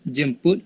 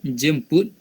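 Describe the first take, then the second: Both takes have the same delivery.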